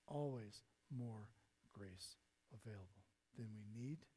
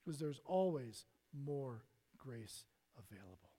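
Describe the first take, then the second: First: Much softer and lower, slowed right down; hushed slow echo. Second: Said in the usual way. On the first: Shown as a demonstration. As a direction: repeat it as a quiet promise.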